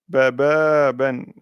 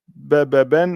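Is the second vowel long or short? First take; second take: long; short. First: The second vowel is long, held two beats. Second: The second vowel is short, held one beat. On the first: The speaker calls it right. "mais baba ben" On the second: The speaker calls it wrong. "On ne dira pas baba ben"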